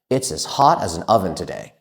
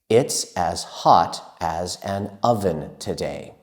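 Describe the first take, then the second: First: It is spoken at the fastest pace. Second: It is spoken at a slow pace. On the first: "And even faster" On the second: "Let's practice saying that together"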